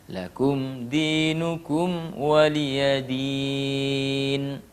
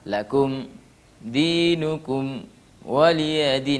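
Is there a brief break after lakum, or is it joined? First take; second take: joined; break. First: The words run on without any stop. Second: There is a brief stop after lakum. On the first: The speaker calls it right. "kita harus sambung" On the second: The speaker calls it wrong. "kita berhenti seakan-akan sakta"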